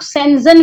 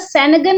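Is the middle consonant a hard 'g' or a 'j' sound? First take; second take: j; hard g. First: The middle consonant is a j sound. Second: The middle consonant is a hard g sound. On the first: "कुछ लोग सेंजन visa बोलते हैं" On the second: "कुछ लोग उसका सेनगन उच्चारण करते हैं"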